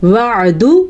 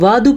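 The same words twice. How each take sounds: First: "وعدو" with a clear throaty ain; correct ain. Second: "وعدو" said as waadu, no ain; wrong missing ain. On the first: Teacher modelling for students, "وعدو" with a distinct ain. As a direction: say "وعدو" with the ain squeezed out before the d. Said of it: "عین کے تلفظ کا دھیان رکھیں". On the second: Teacher showing the mistake, "وعدو" without its ain. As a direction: glide through "وعدو" with a plain long a. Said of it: "تو آپ بالکل غلط پڑھتے ہیں". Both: Shown as a demonstration.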